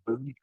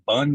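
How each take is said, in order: First: The vowel sounds like 'oo' in 'boon'. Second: The vowel sounds like 'uh' in 'bun'. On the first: This is how the people who make it say it. "but they pronounce it boon" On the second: This is how the spelling reads. "It's just bun"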